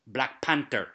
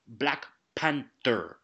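First: Put-on second version of an actor's wandering African accent; lightly mimicked African accent on Black Panther, falling away; imitated changed accent. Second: Black Panther in a lightly put-on African accent, drawn out; imitated slipping accent. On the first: Critic showing how the actor's accent changed, lightly imitated African accent. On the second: Critic mocking an actor's slipping accent, lightly imitated African accent. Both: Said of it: "his accent slipped so many times and changed".

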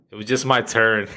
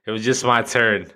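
No difference in how they are said.

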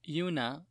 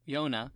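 First: Yuna said with an oo sound; Yuna, the wrong vowel before the fix; mispronounced name. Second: Yona said with an oh sound; Yona, the corrected name. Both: Shown as a demonstration.

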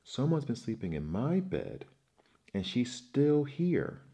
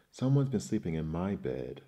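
First: Put-on baby bear screaming in alarm. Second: Louder growling papa bear. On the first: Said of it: "screamed Baby Bear". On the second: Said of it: "growled Papa Bear". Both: A narrator's reading.

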